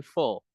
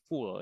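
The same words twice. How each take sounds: First: "full" with the short phonetic U vowel; correct pronunciation. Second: "full" said with the long "oo" of "fool"; wrong pronunciation. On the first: Tutor modelling for learners, "full" correctly pronounced with short U. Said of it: "pakai U senyum kalau di phonetic symbol". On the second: Tutor showing what to avoid, "full" mispronounced as "fool". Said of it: "bukan full ya". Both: Shown as a demonstration.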